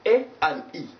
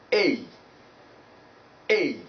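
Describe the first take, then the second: First: "A" as pure eh, "E" as ee, split apart; two separate vowels. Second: "A" gliding from eh into ee in one sound; diphthong glide. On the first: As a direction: pull "A" and "E" apart as single vowels. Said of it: "vowel number three". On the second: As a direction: begin "A" at eh and slide up to ee. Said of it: "pronounce them at once". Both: Shown as a demonstration.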